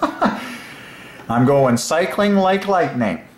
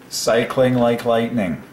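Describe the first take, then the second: First: Laughing it out, higher and very slow; delighted laughing chant. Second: Said in the usual way. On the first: Real, not acted. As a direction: giggle through the words, stretching them. Delighted with his own phrase.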